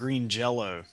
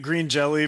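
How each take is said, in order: First: The second word ends with an 'o' sound. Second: The second word ends with an 'ee' sound. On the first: The speaker calls it right. "you're supposed to pronounce it green jello" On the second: The speaker calls it wrong. "all these years we've been incorrectly pronouncing their name"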